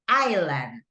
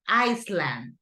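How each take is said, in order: First: The s in the middle is silent. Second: The s in the middle is sounded. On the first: The speaker calls it right. "it's island" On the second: The speaker calls it wrong. "it's no Iceland"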